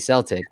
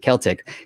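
First: It is said the speaker's own, non-Irish way. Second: It is said the way the Irish say it.

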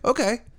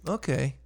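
First: It sounds open and agreeing. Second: It sounds doubtful and disagreeing.

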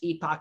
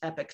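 First: The word is said the European way. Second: The word is said the North American way. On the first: "If you're from Europe, it's pronounced Epoch" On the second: "if you're from North America, it's pronounced Epoch Times"

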